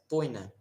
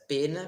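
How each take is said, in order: First: The first vowel is an oi diphthong. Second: The first vowel is a plain e sound. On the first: This is the reconstructed classical pronunciation. "vai pronunciar poina" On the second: This is the traditional pronunciation. "em vez de pronunciar pena"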